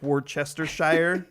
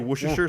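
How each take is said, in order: First: The word is read out with every written syllable. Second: The word is clipped, with syllables run together. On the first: This is how the spelling looks on the label. "it looks like Worcestershire. And nobody says it that way" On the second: This is how people commonly say it. "You just kind of say Worcestershire sauce"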